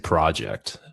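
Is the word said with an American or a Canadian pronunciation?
American. The word has an American pronunciation. "If you try to sound like an American, you can say project"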